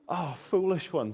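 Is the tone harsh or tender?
tender. The words sound tender and affectionate. The listeners are being gently pitied. The speaker calls it right. "much more than, than berating them"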